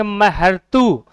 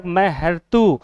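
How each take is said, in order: First: महर्तु stretched syllable by syllable, very slow; drawn out slowly. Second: Said in the usual way. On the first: Shown as a demonstration. Teacher sounding out the word for students, very slow. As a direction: spell महर्तु out slowly for the class. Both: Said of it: "शब्द को बोल के दिया".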